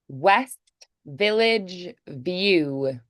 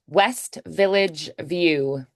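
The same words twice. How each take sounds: First: The phrase is said at a slower pace. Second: The phrase is said at a faster pace.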